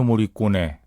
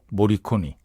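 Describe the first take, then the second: First: The name ends with an 'eh' vowel. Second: The name ends with an 'ee' vowel. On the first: This is how it is usually pronounced locally. "엔니오 모리꼬네라고 우리가 발음하는데" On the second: Some people say this is the correct pronunciation. "이게 모리꼬니가 맞다는 사람도 있고요"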